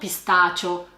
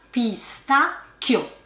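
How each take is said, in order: First: The middle consonant is a soft ch sound. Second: The middle consonant is a hard k sound. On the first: The speaker calls it wrong. "non pistaccio" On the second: The speaker calls it right. "Attenzione alla pronuncia pistacchio"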